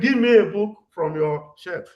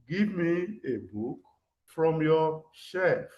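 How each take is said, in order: First: It is said in a firm, ordering tone. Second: It is said in a polite, asking tone. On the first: The speaker is ordering, not asking. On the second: The speaker is asking, not ordering.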